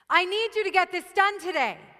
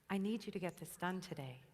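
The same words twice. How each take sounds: First: It is said with high, forceful intensity. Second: It is said with low, timid intensity.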